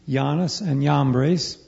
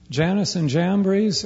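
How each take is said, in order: First: The names are said in an older form. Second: The names are said in their modern form.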